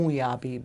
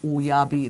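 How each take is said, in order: First: Uyabi with the vowels pushed through the nose; nasal Uyabi, the wrong version; nasalized. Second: Uyabi with clean oral vowels, no nasal twang; not nasalized. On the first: Teacher demoing the wrong nasalized Uyabi for contrast. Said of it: "If it's nasalized". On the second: Teacher contrasting plain Uyabi with a nasal version. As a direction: keep Uyabi out of the nose. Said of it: "That's not nasalized". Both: Shown as a demonstration.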